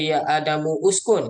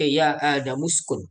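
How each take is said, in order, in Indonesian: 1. Kata 'uskun' diucapkan terpisah dengan vokalnya. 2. Kata 'uskun' langsung menyambung ke kata sebelumnya. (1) "kita tak baca" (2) "kita baca"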